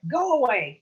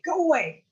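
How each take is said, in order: First: First go away, loud; angry yell. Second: Second go away, much higher; shriller yell. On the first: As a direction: go away shouted loud and higher. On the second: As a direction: go away even higher and loud. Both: Acted. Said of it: "She screamed at 'em".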